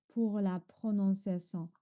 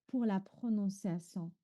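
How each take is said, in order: Both takes have the same delivery.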